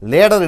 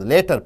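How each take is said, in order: First: The middle consonant sounds like a D. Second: The middle consonant is a clear T.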